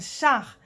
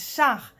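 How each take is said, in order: First: The vowel is an open French 'a' sound. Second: The vowel is an open French 'a' sound.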